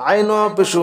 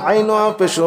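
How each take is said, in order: No difference in how they are said.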